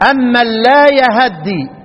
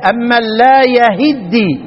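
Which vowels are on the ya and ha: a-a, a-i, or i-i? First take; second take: a-a; a-i. First: Both the ya and the ha take an a vowel. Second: The ya takes a, the ha takes i. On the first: "الباقون بفتح الايه؟ الهاء والياء" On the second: "حفص يقرأ كسر الهاء وفتح الايه؟ الياء"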